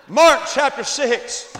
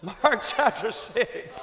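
First: Loud, slow, booming shout; preacher's shout. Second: Slow, chuckling repeat; laughing. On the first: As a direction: boom the text out to the crowd. Announces the text, repeated. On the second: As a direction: laugh your way through it. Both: Acted.

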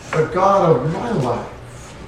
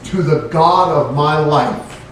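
First: "God" weighted in a slow, soft repeat; stress on God. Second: "God" leaned on, slow and falling; stress on God. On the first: Shown as a demonstration. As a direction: repeat softly and slowly, pressing "God". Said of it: "It's an all-encompassing thing". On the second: Retold or imitated. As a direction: draw out "To the God of my life" with weight on "God". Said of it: "when David prayed, he prayed".

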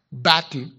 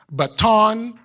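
First: "baton" stressed on the first syllable, BAT-n; alternative pronunciation. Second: "baton" stressed on the second syllable, ba-TON; alternative pronunciation. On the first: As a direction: say "baton" as BAT-un, with a reduced ending. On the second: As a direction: say "baton" as buh-TON, with a full final vowel. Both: Shown as a demonstration. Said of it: "some may refer to it as".

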